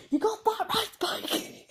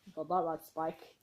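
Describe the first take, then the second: First: High, loud shrieking scream; a scream that cracks into laughter; real scream. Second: Said in the usual way. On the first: Retold or imitated. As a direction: shriek it out at the top of your voice. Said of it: "that's not really a scream". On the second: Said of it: "he screamed".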